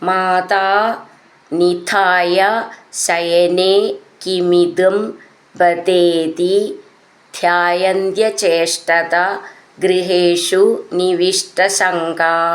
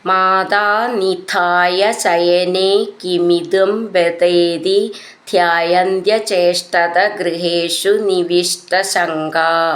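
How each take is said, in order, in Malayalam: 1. വാക്കുകൾ ചെറിയ ഇടവേളകളോടെ വേർതിരിച്ചാണ് പറയുന്നത്. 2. വാക്കുകൾ ചേർന്ന് സുഗമമായി ഒഴുകുന്നു.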